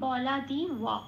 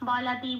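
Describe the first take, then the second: First: The last syllable has a w sound, wa. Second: The last syllable has a plain b sound. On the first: It is read the Sanskrit way. "সেটা ঠোঁট খুলে বলতে হবে ওয়া।" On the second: It is read the Bengali way. "এটা আমি বাংলায় বললাম।"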